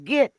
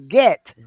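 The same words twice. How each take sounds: First: The vowel sounds like the one in sit. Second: The vowel sounds like the one in set. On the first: The speaker calls it wrong. "is not get" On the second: The speaker calls it right. "you need to pronounce the word as it is spelled"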